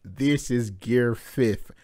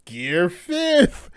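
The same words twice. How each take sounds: First: Said in the usual way. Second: Gear fifth called out high and stretched; excited call, higher pitch; hyped reveal. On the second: Real, not acted. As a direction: announce it like a big reveal.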